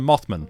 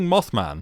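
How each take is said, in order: First: It is said like a family surname. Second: It is said like a superhero's name. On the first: "like it's a surname" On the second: "like it's a superhero"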